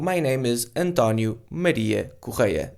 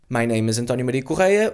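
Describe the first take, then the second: First: The name is said slowly. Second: The name is said quickly. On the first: The speaker calls it right. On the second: The speaker calls it wrong.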